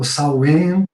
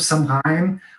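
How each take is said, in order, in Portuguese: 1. O nome é dito com sons ingleses. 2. O nome é lido com sons portugueses.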